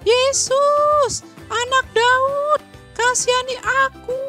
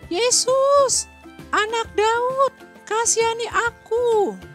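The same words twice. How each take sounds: First: It is shouted even more loudly. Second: It is shouted at a normal level.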